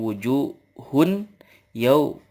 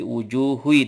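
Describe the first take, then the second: First: The n sound is pronounced clearly before the y. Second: The n sound merges into the following y. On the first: The speaker calls it wrong. "Kita gak boleh bacanya wujuhun yau, nggak gitu" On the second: The speaker calls it right. "Tapi wujuhui diidgham"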